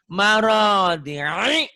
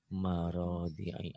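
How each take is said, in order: First: The word is said forcefully, with strong emphasis. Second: The word is said softly, without force. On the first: The speaker calls it right. "emang ini penekanan. Jadi eh, biar powernya keluar" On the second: The speaker calls it wrong. "Ah, gak mantap"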